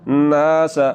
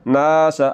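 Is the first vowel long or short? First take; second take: long; long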